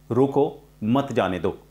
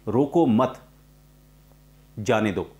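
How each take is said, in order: First: Slow "रोको", a clear gap, then "मत जाने दो"; pause after रोको. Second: "रोको मत" in one go, long pause, "जाने दो"; pause after मत. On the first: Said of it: "रोको के बाद कॉमा लगाया". ("रोको" पर रुककर बोलें) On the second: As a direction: break late, between मत and जाने दो. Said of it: "कॉमा को गलत तरीके से प्रोनाउंस किया". ("मत" के बाद लंबा विराम) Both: Shown as a demonstration.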